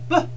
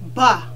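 First: The sound is short and light, barely voiced. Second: The mouth opens wide with a drawn-out vowel. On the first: The speaker calls it right. "You only want to say ba slightly. Just get it out nice and easy" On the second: The speaker calls it wrong. "don't open your mouth that wide. Because now you're making two sounds instead of one"

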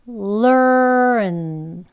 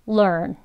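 First: The word is said slowly and drawn out. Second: The word is said quickly and briefly. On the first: "천천히 이어서 두 번 해볼게요" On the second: "조금 빨리 해볼게요"

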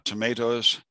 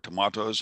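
First: It is pronounced the American way. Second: It is pronounced the British way.

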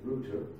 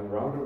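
First: Router is said the British way, rhyming with 'tooter'. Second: Router is said the American way, rhyming with 'outer'. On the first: "But I learned British English at school" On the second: "If you come from the US, a router may be more appealing to you"

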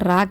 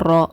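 First: The r sound is light and thin. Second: The r sound is heavy and full. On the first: The speaker calls it wrong. "ரா கிடையாது" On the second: The speaker calls it right. "ராவை வல்லினமாக ஓதுங்க"

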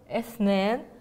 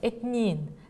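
First: The middle consonant is an interdental 'th' sound. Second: The middle consonant is a plain 't' sound.

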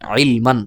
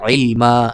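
First: The word ends with a short vowel plus n. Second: The word ends with a long, stretched vowel. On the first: The word is read in spelling mode, without stopping. "এভাবে হবে উচ্চারণ করে বানানোর সময়" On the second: The reader stops on the word. "ওয়াকফ করা হয় তাহলে হবে আইল মা এভাবে"

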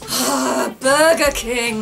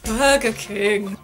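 First: It is said in a moaning, pleasured tone. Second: It is said in an angry tone.

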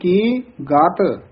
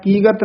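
First: There is a short pause between the syllables. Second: The syllables run together without a pause. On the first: The speaker calls it right. "थोड़ा जा ठहरा दे के फिर बोलना गात" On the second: The speaker calls it wrong. "कीगत नहीं कह देना"

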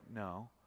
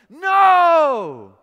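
First: It is said quietly and flatly. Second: It is said loudly and forcefully.

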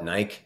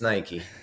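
First: The name is pronounced the way people in the UK say it. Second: The name is pronounced differently from the UK way. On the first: The speaker calls it wrong. "they call it Nike in the UK" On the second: The speaker calls it right. "no, it's Nike"

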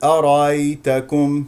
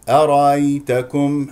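The two takes are said the same way.

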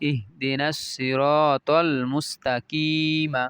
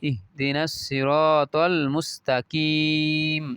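First: The last word ends with a final vowel. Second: The last word ends on a bare consonant. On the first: The reading continues without stopping. "এভাবে বলতে পারি" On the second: The reader stops at this point. "আমরা যদি ওয়াকফ করি তাহলে এই পর্যন্ত বলবো"

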